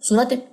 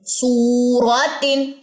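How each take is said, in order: First: The first vowel is cut short. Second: The first vowel is held long. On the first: The speaker calls it wrong. "अब इसको क्या नहीं पढ़ना" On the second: The speaker calls it right. "इसको लंबा करना है क्योंकि ये वाव मद है।"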